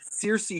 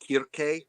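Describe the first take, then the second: First: The name begins with a soft s sound. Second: The name begins with a hard k sound. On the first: The speaker calls it wrong. "technically Circe should be pronounced" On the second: The speaker calls it right. "should be pronounced Kirke"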